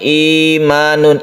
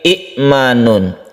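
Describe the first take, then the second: First: The first vowel i is held long. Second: A glottal stop follows a short first i. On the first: This is how the word is actually read. "i-nya itu panjang ya" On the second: This is the word's original underlying form. "Itu asalnya bukan imanun tapi i'manun"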